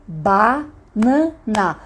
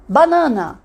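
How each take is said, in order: First: "Banana" very slowly, broken into ba, na, na; syllable by syllable. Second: Said in the usual way. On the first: Shown as a demonstration. Teacher counting syllables with the palm, syllable by syllable. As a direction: clap out "Banana", a gap after each syllable. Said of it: "Podemos bater palma?". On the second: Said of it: "Agora vamos ver uma fruta".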